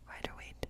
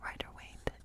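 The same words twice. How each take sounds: The two takes are said the same way.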